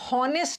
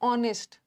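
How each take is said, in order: First: The word starts with an h sound. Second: The word starts with a vowel sound. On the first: The speaker calls it wrong. "हॉनेस्ट नहीं होता" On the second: The speaker calls it right. "यहां भी H silent है"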